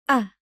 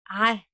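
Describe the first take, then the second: First: It starts with a plain glottal catch. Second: It starts with a tight throat squeeze. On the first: The speaker calls it wrong. "if you don't constrict the muscles. The sound comes as a hard E" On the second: The speaker calls it right. "Now constrict the muscles"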